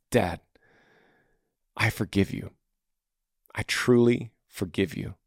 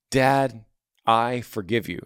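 First: Softer, lower, sincere words to a father; sincere quiet forgiveness. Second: Said in the usual way. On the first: Retold or imitated. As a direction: say it gently as a daily promise. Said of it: "Think if you said this every morning". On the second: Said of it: "So it's like".

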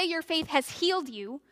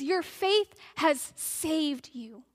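First: Said in the usual way. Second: Slow, deliberate line with weight on "saved"; stress on saved. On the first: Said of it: "he doesn't just say". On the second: Shown as a demonstration. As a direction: draw out each word, landing "saved" firmly. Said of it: "He says".

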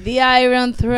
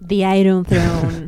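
First: The Iron Throne echoed slowly through a laugh; The Iron Throne, laughing, copying the English; mocking repeat. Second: The Iron Throne said slowly in careful English; The Iron Throne, louder, drawn out like a title; English pronunciation. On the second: Shown as a demonstration.

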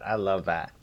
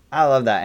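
First: Said in the usual way. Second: Higher, louder burst of I love that; excited emphatic second take; emphatic repeat. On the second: Real, not acted. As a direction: punch the repeat with real enthusiasm.

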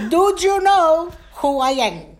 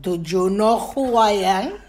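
First: Much higher, louder challenge from dad; outraged father. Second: Louder father's challenge, rising at the end; stern father. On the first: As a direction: hammer it out as an indignant father, falling at the end. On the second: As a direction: play dad demanding an answer. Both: Acted. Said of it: "he would look at me and say".

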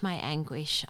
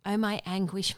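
First: Subdued echo of the lament. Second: First anguished outcry; anguished cry. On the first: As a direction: let "my anguish" fall away after the cry. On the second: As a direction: lift "my anguish" like a wail of pain. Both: Acted. Lament read from scripture.

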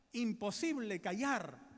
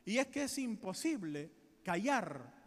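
First: "imposible callar" drawn out slowly, each word weighted; slow emphatic repeat. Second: Said in the usual way. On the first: Acted. Preacher stressing to congregation that silence is impossible, slow emphasis.

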